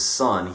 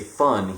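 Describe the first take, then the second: First: The word begins with a clear s sound. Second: The word begins with a lisped th sound. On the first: "he says son. He can pronounce the S in son" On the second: "He doesn't say thun"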